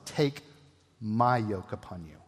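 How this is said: The word my is stressed.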